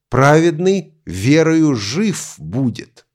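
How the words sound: The word жив carries the main stress. The point is that the righteous will have life. "Здесь акцент сделан на слове «жить»"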